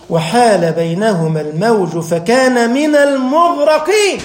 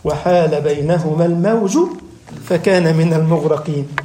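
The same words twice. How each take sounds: First: Slow, fuller Quranic recitation at normal pitch; unhurried solemn chant with a fall at المغرقين. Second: Slow, lower solemn Quranic recitation; grave slow chant of the verse. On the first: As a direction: recite the verse in full, slowly. Recites verse again, fuller. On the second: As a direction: intone the verse low and slow. Recites verse slowly, low. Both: Acted.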